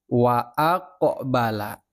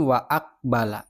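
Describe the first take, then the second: First: "Wa aqbala" slow, the q released with a bounce, "aq-a-bala"; bouncing qaf. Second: "wa aqbala" with a dead, unreleased q, "aqbala" clipped shut; wrong flat qaf. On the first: Teacher demonstrates correct qalqalah to pupils, slow bounce. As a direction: let the qaf in "aqbala" rebound. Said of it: "kalau qafnya ini memantul". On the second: Teacher shows pupils the wrong reading, no bounce. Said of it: "Bukan wa aqbala, bukan. Salah". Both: Shown as a demonstration.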